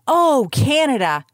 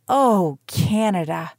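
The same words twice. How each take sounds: First: It is said proudly, like a proclamation. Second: It is said heavily, like a disappointed parent. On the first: The nation is something to celebrate. "proclaiming with pride" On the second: The nation has let its people down. "with heavy hearts saying like a disappointed parent"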